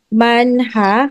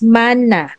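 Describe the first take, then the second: First: An h sound is heard after the n. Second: No h sound is heard after the n. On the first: The speaker calls it wrong. "para siyang uh, manha" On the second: The speaker calls it right. "pero ang totoong pronunciation niya is manna"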